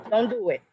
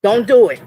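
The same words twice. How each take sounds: First: Quiet warning. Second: Louder, forceful repeat of the threat; loud warning. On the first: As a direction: say it under your breath as a warning. Warning the troll, low and quiet. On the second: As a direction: push it out hard the second time. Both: Real, not acted.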